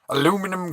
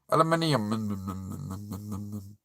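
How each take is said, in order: First: The word is said with four syllables. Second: The word is said with five syllables. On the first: This is the American way of saying it. The speaker calls it wrong. "It's how Americans say" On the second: This is how the rest of the world says it. The speaker calls it right. "It's aluminium"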